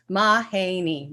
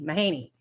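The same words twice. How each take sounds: First: Mahaney sounded out slowly as Ma-ha-ney, each syllable apart; slow syllable-by-syllable name. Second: Said in the usual way. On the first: Shown as a demonstration. Chair teaching her name to the council, slowly syllable by syllable. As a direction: spell out Mahaney by ear, one beat per syllable. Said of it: "I'm gonna do it in three, uh, three syllables".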